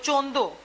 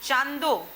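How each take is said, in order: First: The first vowel is an 'o' sound. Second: The first vowel is an open 'aa' sound. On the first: This is the North Gujarat dialect pronunciation. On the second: This is the standard pronunciation.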